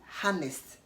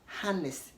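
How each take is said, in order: Both takes have the same delivery.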